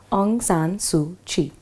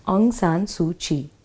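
Both takes have the same delivery.

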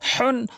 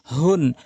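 First: হুন with a strong squeezed h; slow হুন, h rasped from mid-throat; mid-throat big ha. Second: হুন with a light h from the start of the throat; small ha. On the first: Teacher drills the pair, throaty h in হুন. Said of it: "বড় হাটি হলকের মাঝখান থেকে". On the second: Teacher drills the pair, light h in হুন. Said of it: "ছোট হা হচ্ছে হলকের শুরু থেকে". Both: Shown as a demonstration.

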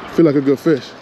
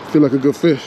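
Both takes have the same delivery.

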